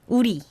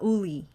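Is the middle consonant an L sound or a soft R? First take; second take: soft R; L sound. First: The middle consonant is a soft R sound. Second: The middle consonant is a clear L sound. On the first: The speaker calls it right. "the ri is the soft uri" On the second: The speaker calls it wrong. "It's not uli"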